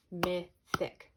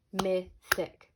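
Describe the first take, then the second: First: Said in the usual way. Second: Mythic said louder, short I stressed; clear demo word. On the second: Shown as a demonstration. Teacher models mythic so students hear the I. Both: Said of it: "You hear how the I".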